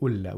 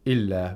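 First: The word begins with a 'u' vowel. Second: The word begins with an 'i' vowel. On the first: "we don't say Ulla" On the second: "We don't say Illa"

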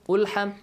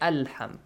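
First: The word begins with a u vowel. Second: The word begins with an a vowel. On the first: The speaker calls it wrong. "you don't say Ilham Ulham" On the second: The speaker calls it right. "you say Alham"

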